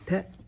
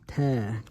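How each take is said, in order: First: The vowel is cut short. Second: The vowel is drawn out long. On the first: The speaker calls it wrong. "So it's not ta, ta, ta is a fatha" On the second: The speaker calls it right. "The correct pronunciation of the letter is like a ta with an alif"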